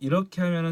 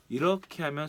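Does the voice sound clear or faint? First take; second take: clear; faint. First: The voice is picked up strong and clear. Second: The voice is picked up weak and faint. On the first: "이렇게 하면 소리가 잘 들어가는데" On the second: "이렇게 하면 소리가 안 들어가는 거죠"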